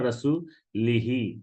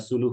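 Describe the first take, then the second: First: The word ends with the vowels 'i-hi'. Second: The word ends with the vowels 'u-hu'. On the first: The speaker calls it wrong. "একজন পড়ে ফেলছিলেন রাসূলিহি" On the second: The speaker calls it right. "রাসূলুহুর জায়গায়"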